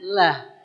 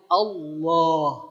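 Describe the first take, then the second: First: The L sound is light and thin. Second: The L sound is heavy and thick. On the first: "kita mengucapkan la-nya itu ringan" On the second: "tebal, tafkhim"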